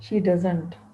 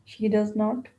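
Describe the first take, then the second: First: Does not is said as one contracted word. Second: Does not is said as two full words.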